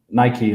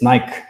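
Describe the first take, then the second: First: The name is said with an English pronunciation. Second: The name is said with an Icelandic pronunciation.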